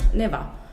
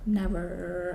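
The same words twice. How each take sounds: First: The final R sound is dropped. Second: The final R sound is clearly pronounced. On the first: The speaker calls it wrong. "before it was like never" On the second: The speaker calls it right. "you say like never"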